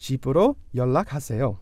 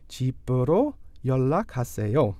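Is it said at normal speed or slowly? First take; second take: normal speed; slowly. First: It is said at normal speed. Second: It is said slowly.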